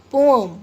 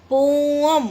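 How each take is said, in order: First: Said in the usual way. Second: "पोएम" stretched, both syllables held, loud; drawn-out syllables. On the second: Shown as a demonstration. Teacher showing two pieces, "पोएम" stretched out. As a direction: draw out "पो" and "एम" loudly. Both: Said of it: "दो टुकड़े हो जाते हैं".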